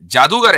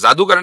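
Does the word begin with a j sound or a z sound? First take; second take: j; z. First: The word begins with a j sound. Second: The word begins with a z sound. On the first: The speaker calls it right. "जादूगर है लफ्ज़" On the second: The speaker calls it wrong. "जादूगर नहीं है"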